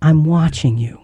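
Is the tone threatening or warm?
warm. It sounds warm and caring, like love.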